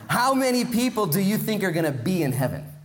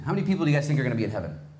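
First: It is said slower, louder and more clearly. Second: It is said at a normal pace and volume.

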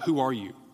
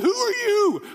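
First: It is asked in a calm, plain way. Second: It is asked in a frantic, panicked way.

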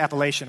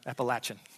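First: It is said the way outsiders say it. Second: It is said the local Appalachian way.

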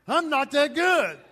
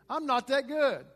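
First: The phrase is said firmly, with strong conviction. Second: The phrase is said plainly, without strong feeling.

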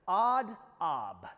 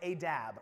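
First: It is said as two Hebrew-sounding words. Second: It is said as one English-sounding word.

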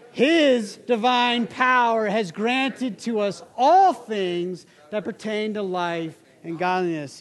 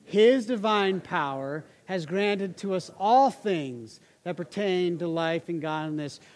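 First: It is said loudly with lively energy. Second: It is said with ordinary, calm energy.

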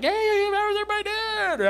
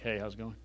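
First: It is said in an exaggerated, cheerful Guy Smiley voice. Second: It is said flatly, without warmth.

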